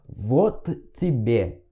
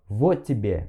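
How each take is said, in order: First: The two T sounds are pronounced separately. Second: The two T sounds merge into one. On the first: The speaker calls it wrong. "você não fala вот тебе" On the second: The speaker calls it right. "Você fala como se fosse uma coisa só"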